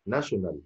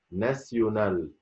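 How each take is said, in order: First: ناشونال with an English sh in the middle; ناشونال said the English way, shorter; English pronunciation. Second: ناسيونال with an s-y glide, no sh; ناسيونال said slowly, syllable by syllable, French style; French pronunciation. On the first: Teacher shows learners the English form, English pronunciation. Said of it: "ناشونال أنطقها ناسيونال". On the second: Teacher models the French word for learners, French pronunciation. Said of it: "أنطقها ناسيونال". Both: Shown as a demonstration.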